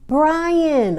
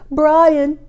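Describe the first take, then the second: First: It is said in the speaker's normal voice. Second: It is said in a Stewie Griffin impression.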